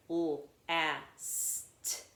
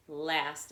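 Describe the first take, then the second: First: "Last" split into separate l, a, s, t; tapped sound by sound. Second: Said in the usual way. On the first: Shown as a demonstration. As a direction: sound out "Last" slowly, one sound per tap. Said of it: "Now let's tap it". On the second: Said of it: "I hear a blend".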